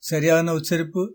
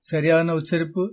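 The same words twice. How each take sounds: No difference in how they are said.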